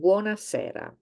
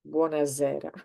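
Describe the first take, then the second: First: The middle s is a hissing s sound. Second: The middle s is a buzzing z sound. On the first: The speaker calls it right. "the pronunciation is always the same" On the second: The speaker calls it wrong.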